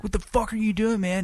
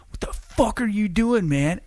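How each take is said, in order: First: High mock yell repeated; yelling it a second time; high retold yell; angry yell. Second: Yelling at a stranger caught smoking; teen yelling "what the fuck"; angry yell. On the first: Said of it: "I was like". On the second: Retold or imitated. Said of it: "and I was like".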